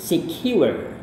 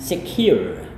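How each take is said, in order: First: The word is said with a British accent. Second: The word is said with a non-British accent. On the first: "gaya British yaitu secure" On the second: "Anda juga melafalkannya dengan secure"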